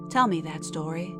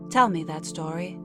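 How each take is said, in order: Both takes have the same delivery.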